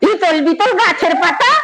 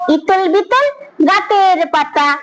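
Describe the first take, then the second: First: It is recited in an angry, quarrelling tone. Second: It is recited in an affected, posh manner. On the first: "ঝগড়া করতে করতে" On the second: "বাবুরা যেমন করে কথা বলে তেমন করে"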